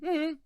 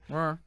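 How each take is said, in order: First: The pitch falls at the end. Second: The pitch rises at the end. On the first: Fine, thanks, and you? "that's different?" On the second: Hi, how are you? "The little upward inflection at the end"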